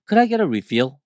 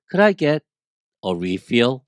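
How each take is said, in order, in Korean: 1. 이 문장은 쉬지 않고 빠르게 말합니다. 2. 이 문장은 쉬면서 천천히 말합니다.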